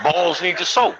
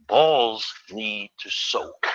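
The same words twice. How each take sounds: First: Laughing repeat. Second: Slow aunt's advice. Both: Shown as a demonstration.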